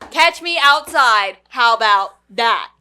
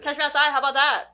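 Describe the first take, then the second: First: Each word is said clearly and carefully. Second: The words are rushed out very fast.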